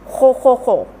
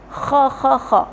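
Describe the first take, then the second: First: The vowel is a rounded o. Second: The vowel is an open unrounded a. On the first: The speaker calls it wrong. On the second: The speaker calls it right.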